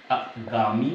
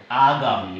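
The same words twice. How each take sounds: First: आगामी as uh-GAA-mi, drawn out slowly; wrong short A. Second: आगामी as AA-gaa-mi; long opening A. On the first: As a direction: start आगामी on a short uh, then slow gaa-mi. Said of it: "आगामी गलत है". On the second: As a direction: open आगामी on a full long aa, lower pitch. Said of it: "बड़ा की मात्रा लगेगी". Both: Shown as a demonstration.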